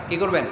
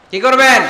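First: Said in the usual way. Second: High, shouted question; loud demand. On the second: Real, not acted. Preacher demanding the congregation answer him, loud shouted question. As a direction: shout it to rouse the crowd.

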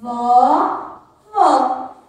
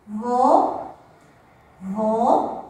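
First: Vó with open o as in "pó"; Vó com o aberto; open vowel vó. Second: Vô with closed o as in "avô"; Vô com o fechado; closed vowel vô. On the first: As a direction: say Vó with an open, wide o. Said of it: "Ó, vamos observar". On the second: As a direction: say Vô with a closed, round o. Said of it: "mesmo não, desculpa". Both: Shown as a demonstration.

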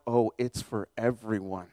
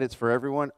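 First: Softer, lower and slow, it's for everyone; quiet realization. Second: Said in the usual way. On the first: Shown as a demonstration. Preacher realizing the message is for all, slow and soft. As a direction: let it sink in gently.

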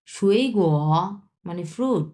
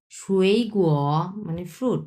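No difference in how they are said.

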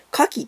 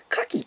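First: 牡蠣 pitched as the word for firearms; own intonation for firearms. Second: 牡蠣 in the newsreader's pitch pattern; TV-news intonation. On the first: Streamer showing what this sounds like, firearms intonation. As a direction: demonstrate 牡蠣 as if meaning pistols. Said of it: "牡蠣ってあっちゃん言ったら". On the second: Streamer showing how TV says oyster, demonstrated intonation. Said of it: "テレビのニュースで". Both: Shown as a demonstration.

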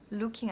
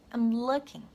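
First: LOOKING as a Korean-style loo-king; a long oo in LOOKING, as the mistake; wrong pronunciation. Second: LOOKING with a short, relaxed oo; natural pronunciation. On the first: Teacher correcting learners, wrong looking. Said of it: "looking 아니고". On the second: Teacher modelling for learners, natural looking. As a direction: run I'M into LOOKING, short vowel. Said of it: "발음 요렇게 만들어주세요". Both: Shown as a demonstration.

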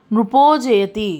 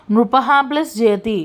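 First: నృపో జయతి slowly, with a long ఓ; visarga becomes o. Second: Said in the usual way. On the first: Shown as a demonstration. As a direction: stretch the final o of నృపో before జయతి. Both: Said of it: "ప్రొనౌన్సియేషన్లో ఉకారం అనేది వస్తుంది".

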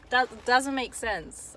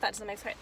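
First: "That doesn't make sense" slowed right down, each word weighted; slow emphatic repeat. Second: Said in the usual way. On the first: Real, not acted. Insisting to the viewer it adds up to nothing, slow and emphatic.

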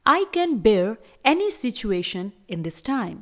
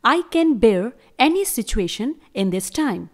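Both takes have the same delivery.

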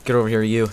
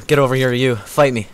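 First: Said in the usual way. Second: Louder mock challenge to fight; louder taunt. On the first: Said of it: "repeated taunt". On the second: Challenging the enemy to fight, louder mock taunt. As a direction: punch up the taunt. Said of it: "repeated taunt, louder".

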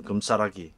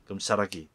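First: 금싸라기 with the ㅆ said halfway between s and ch, slowly; 금싸라기를 스와 츠 중간 발음으로. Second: Said in the usual way. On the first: Shown as a demonstration. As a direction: say 금싸라기 with an s-ch blend. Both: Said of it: "스, 츠 발음 중간쯤".

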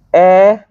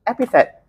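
First: "Epithet" broken into three separate syllables. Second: Said in the usual way. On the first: Shown as a demonstration. Teacher introducing a new term to class, syllable-by-syllable.

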